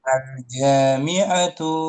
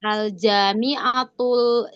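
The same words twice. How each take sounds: First: Al-Jami'atu said slowly with a long ja; slow model pronunciation. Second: Al-Jami'atul repeated slowly after the teacher; slow repetition. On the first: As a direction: spell out Al-Jami'atu slowly, each syllable. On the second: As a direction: echo Al-Jami'atul slowly and carefully. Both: Shown as a demonstration.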